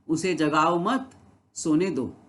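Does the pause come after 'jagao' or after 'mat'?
after mat. There is a pause right after 'mat'. Do not wake the person; let them sleep. "यानी उसको उठाओ मत, जगाओ मत, उसको सोने दो।"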